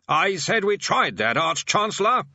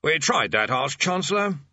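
First: Loud repetition. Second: Said in the usual way. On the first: Acted. Bursar repeats himself to the deaf old man, loudly. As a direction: say it up into an old man's ear. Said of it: "said the bursar loudly". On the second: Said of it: "The bursar sighed".

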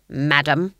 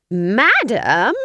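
First: Said in the usual way. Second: Higher, louder incredulous Madam?; outraged question. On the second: A narrator's reading. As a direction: fling Madam? back in disbelief. Granny outraged at being called madam.

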